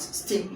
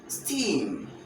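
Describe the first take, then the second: First: The vowel is short. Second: The vowel is long. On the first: The speaker calls it wrong. "no, not steam" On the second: The speaker calls it right. "but steam. So this is why we're going to uh, transcribe it with a long e sound"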